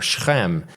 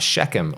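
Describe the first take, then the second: First: The name is said with Hebrew pronunciation. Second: The name is said with English pronunciation.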